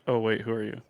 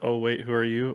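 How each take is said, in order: First: It sounds startled, reacting to someone walking in. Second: It sounds like calmly asking the listener directly.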